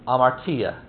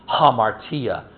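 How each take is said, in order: First: The word begins directly with a vowel sound. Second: The word begins with an audible H sound.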